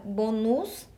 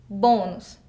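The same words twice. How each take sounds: First: "bonus" with the final -nus stressed; wrongly stressed bonus. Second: "Bônus" with a strong, louder first syllable; correct pronunciation of bônus. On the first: Teacher shows students the wrong word, "bonus" stressed on -nus. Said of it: "a nossa palavra bonus tá errada". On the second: Teacher answers how it is correct, "Bônus" stressed firmly on bô. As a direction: say "Bônus" as BÔ-nus, closed o. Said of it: "Como que ela fica correta?". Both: Shown as a demonstration.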